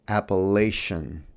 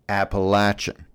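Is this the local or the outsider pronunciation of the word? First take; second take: outsider; local. First: The word is said the outsider way. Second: The word is said the local way. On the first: The speaker is not from the region. The speaker calls it wrong. "I made the fatal mistake of pronouncing" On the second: The speaker belongs to the region. The speaker calls it right. "I was appropriately corrected. It's"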